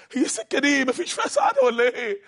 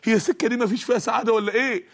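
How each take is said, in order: First: Much higher, pleading question; high breaking plea of "ولا إيه"; high desperate cry. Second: Said in the usual way. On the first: Acted. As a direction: cry it out in despair. Repeated despairing question.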